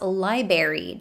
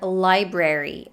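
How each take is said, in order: First: One of the R sounds is left out. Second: Both R sounds are pronounced. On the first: The speaker calls it wrong. "dropping one of the R's" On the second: The speaker calls it right. "this R is supposed to be there"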